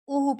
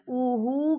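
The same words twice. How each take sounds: First: Both vowels are kept short. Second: One vowel is drawn out long. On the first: The speaker calls it right. "उहु पढ़ना" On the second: The speaker calls it wrong. "उहु करके नहीं पढ़ना, या आप हमजा को लंबा करें या हा को"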